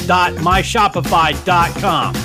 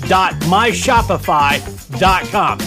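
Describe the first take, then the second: No difference in how they are said.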